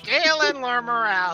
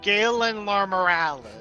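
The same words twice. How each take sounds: First: It is said in a very high voice. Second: It is said in a lower voice.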